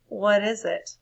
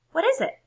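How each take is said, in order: First: Tired of the ideas, flat and fed up; reread differently. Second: High, loud question; squeaky eager what is it; first take. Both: Shown as a demonstration. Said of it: "Oh, I need to read that differently".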